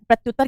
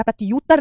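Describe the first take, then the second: First: प्रत्युत्तर with a short "tyu"; प्रत्युत्तर, middle syllable kept short; correct short u. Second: प्रत्युत्तर pulled apart as "prati-yuttar"; प्रत्युत्तर with a stretched, separate "yu"; wrong split form. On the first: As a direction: say प्रत्युत्तर as "pratyuttar". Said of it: "प्रत्युत्तर कहते हैं बेटा". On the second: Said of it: "प्रत्युत्तर नहीं कहते". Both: Shown as a demonstration.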